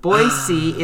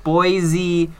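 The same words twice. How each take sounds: First: Put-on "Boise" said slowly as BOY-see, with an s; BOY-see pronunciation. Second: Put-on "Boise" as BOY-zee, with a buzzing z; BOY-zee mispronunciation. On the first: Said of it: "Boise is pronounced Boise". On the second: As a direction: say "Boise" higher, as a mock-wrong BOY-zee. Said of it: "or whatever other weird pronunciation". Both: Shown as a demonstration.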